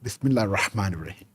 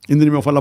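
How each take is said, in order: First: It is recited slowly and clearly with modulation. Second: It is recited very fast with words swallowed. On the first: The message has an impact on listeners. The speaker calls it right. "if you give with modulation" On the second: The message has no impact on listeners. The speaker calls it wrong. "at one hundred miles per hour"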